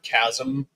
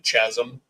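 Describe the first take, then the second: First: The word begins with a 'k' sound. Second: The word begins with a 'ch' sound. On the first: The speaker calls it right. "I'd never heard the word chasm before" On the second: The speaker calls it wrong. "would pronounce it chasm"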